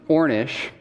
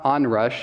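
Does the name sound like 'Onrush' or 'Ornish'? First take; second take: Ornish; Onrush. First: The name is said like 'or-nish'. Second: The name is said like 'on-rush'. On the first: The speaker calls it right. "it's Ornish" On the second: The speaker calls it wrong. "it's not Onrush"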